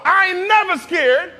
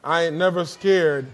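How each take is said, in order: First: Loud and high, slow, stress on never with a rising end; bold declaration. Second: Low, relaxed "I ain't never scared" with a falling end; casual wry aside. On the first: Preacher urges the congregation to say the title, loud and high. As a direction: shout it out with full confidence. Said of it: "Come on". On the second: Preacher jokes about the title in a low, wry voice. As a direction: toss it off with a sly shrug. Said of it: "Not really". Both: Shown as a demonstration.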